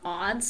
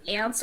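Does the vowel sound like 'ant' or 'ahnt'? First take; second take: ahnt; ant. First: The vowel is broad, as in 'ahnt'. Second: The vowel is short, as in 'ant'. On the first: "some people might say aunts too" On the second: "I personally say ants"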